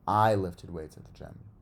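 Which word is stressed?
I. The stress falls on the word I. It tells who did the lifting. "kind of answers who"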